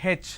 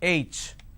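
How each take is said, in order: First: The letter name is said in a regional way. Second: The letter name is said in the standard way. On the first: The speaker calls it wrong. "They say H. It's not H" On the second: The speaker calls it right. "it's H"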